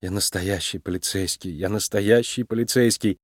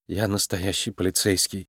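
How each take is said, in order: First: Softer, low, defeated murmur repeated; hopeless self-reassurance, very soft; weak mumble. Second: Softer, low, defeated murmur; dejected self-reassurance under the breath; weak mumble. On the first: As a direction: keep muttering it, barely there. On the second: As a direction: mumble it to yourself, beaten. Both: A narrator's reading. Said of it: "слабо пробормотала она".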